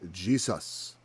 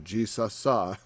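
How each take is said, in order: First: The word ends plainly with no added vowel. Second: The word ends with an added 'ah' sound.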